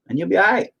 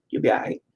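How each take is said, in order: First: Said in the usual way. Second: A soft whisper, repeating it to yourself; whispered reassurance. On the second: Real, not acted. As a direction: breathe it out as a quiet afterthought.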